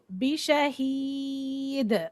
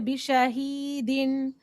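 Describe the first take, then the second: First: The word ends on a bare 'd' sound. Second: The word ends with a '-din' sound. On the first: The speaker calls it right. "you say bishahid" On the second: The speaker calls it wrong. "So we don't say bishahidin"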